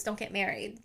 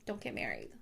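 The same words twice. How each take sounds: First: Said in the usual way. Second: Don't get married dropped much lower and softer; a low, soft aside repeating the advice; low muttered repeat. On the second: Shown as a demonstration. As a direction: mutter it again under your breath.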